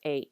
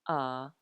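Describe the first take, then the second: First: The letter is said with English pronunciation. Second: The letter is said with Hawaiian pronunciation. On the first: "In English, we know these as A" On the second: "let's use the Hawaiian pronunciation"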